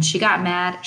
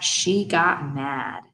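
First: Said in the usual way. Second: "she got mad" very slow, each word weighted; emphatic repeat. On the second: A narrator's reading. Boy describing his babysitter's temper, "she got mad" slow and emphatic.

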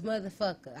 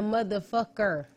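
First: "motherfucker" run together, ending in a relaxed -a; easy "motherfucka", final r dropped; casual pronunciation. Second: "motherfucker" loud, with every syllable pronounced; mock over-enunciated "motherfucker", hard final -er; over-pronounced mimicry. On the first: Shown as a demonstration. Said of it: "Like, it's motherfucker". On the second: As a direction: hit each syllable of "motherfucker". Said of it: "pronounce every fucking syllable in that word".

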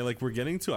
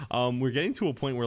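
First: Voice cracking. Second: Said in the usual way. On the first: Real, not acted. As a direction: voice cracks on getting to. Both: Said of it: "my voice just cracked".

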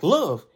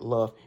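First: Love said bright and a bit louder; upbeat love. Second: Love said lower and subdued. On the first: Host contrasting two ways to say love, happy lift. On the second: Host contrasting two ways to say love, dropped low. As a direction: let love drop down heavy. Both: Shown as a demonstration. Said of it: "but then it's like".

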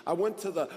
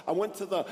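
The two takes are said the same way.

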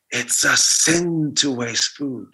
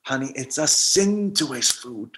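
First: Very slow, hushed echo of grandma; haunting inner voice. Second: Slow, soft solemn warning; solemn grandma warning. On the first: Grandmother's voice echoing in his head, very slow and hushed. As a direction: let it creep in like a memory. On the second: Grandmother warning grandson it's a sin, slow and soft. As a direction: lay on the guilt gently. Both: Retold or imitated.

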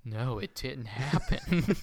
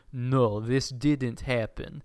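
First: Mind-tricked crowd. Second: Slow, lightly voiced mind-control command; Jedi mind trick. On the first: Retold or imitated. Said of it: "grab their heads like". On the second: Villain mind-tricks a roomful of people, slow hypnotic command. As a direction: mildly imitate a hypnotic, drawn-out denial. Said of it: "like, Jedi mind tricks them".

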